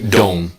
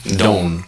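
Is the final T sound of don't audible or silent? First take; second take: silent; silent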